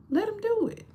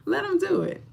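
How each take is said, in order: First: Much higher, soft squeaky urging; high squeak. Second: High squeak. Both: Acted. Urging viewers to let men help, high squeak. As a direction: pipe it up high.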